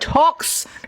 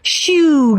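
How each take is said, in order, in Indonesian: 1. Kata ini diucapkan dengan cara lokal, bukan Prancis. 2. Kata ini diucapkan seperti orang Prancis mengucapkannya.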